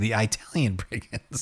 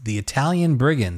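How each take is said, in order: First: It is said in a Chicago accent. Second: It is said in a neutral accent.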